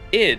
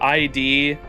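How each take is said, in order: First: It is said as one word rhyming with lid. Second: It is said as two separate letter names. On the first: "Id is lid without the L" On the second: "I said it another way too"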